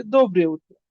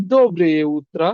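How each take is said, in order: First: Said in the usual way. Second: "দোবরে উত্রা" drawn out slowly, final "আ" held clearly; slow ending pronunciation. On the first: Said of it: "উল্টো রিপিটে". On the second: Shown as a demonstration. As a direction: stretch the last vowel of "উত্রা" so students hear it. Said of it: "উচ্চারণটা লাস্টে এইভাবে শেষ করতে হবে". ("দোবরে উত্রা" ধীরে, শেষের আ টেনে)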